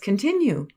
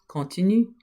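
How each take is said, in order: First: The word is pronounced the English way. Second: The word is pronounced the French way. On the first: "Let's continue" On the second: "It's the same word, exactly the same word"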